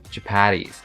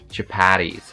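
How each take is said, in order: The two takes are said the same way.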